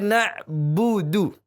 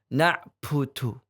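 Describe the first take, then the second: First: The b is released cleanly without extra air. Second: The b has an added breathy puff of air. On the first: The speaker calls it right. "harusnya dihilangkan itu" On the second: The speaker calls it wrong. "jangan sampai tertambahi hamas. ... Ini salah"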